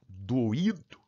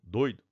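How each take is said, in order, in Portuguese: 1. O o e o i se separam, dando três sílabas. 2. O oi se junta, dando duas sílabas. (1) "São hiatos" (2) "Doi, do. Duas sílabas"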